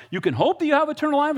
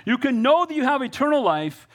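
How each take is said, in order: First: "hope" swapped in and leaned on, pitched high as if questioning; high, quick challenge stressing "hope"; mock misreading. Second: "know" hit hard and held, high and sure; high, assured delivery leaning on "know"; emphatic correction. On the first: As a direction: read it wrong on purpose, high and incredulous on "hope". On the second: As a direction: correct the misreading by punching "know". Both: Shown as a demonstration. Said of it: "Is that what it says?".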